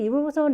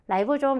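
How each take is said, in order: First: The first syllable is said with an 'ee' vowel. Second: The first syllable is said with an 'eye' vowel. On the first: This is the older Korean-style reading of the term. "리보솜 이렇게 읽은 거" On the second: This is the English-style reading heard in lectures. "영어식 표현을 많이 듣게 돼요"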